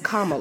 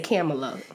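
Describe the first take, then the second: First: The first syllable does not sound like 'cam'. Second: The first syllable sounds like the word 'cam'. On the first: The speaker calls it right. "But it's Kamala" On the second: The speaker calls it wrong. "not to say Kamala, because you want to say Kamala"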